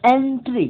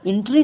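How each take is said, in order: First: एंट्री said as "entri" with a clear e; एंट्री modelled as "entri" with an open e; एंट्री spoken as "entri", the right way; correct pronunciation. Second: एंट्री said as "intri" with a short i; एंट्री mispronounced as "intri", shown as the wrong way; एंट्री spoken as "intri" for contrast. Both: Shown as a demonstration. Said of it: "एंट्री नहीं".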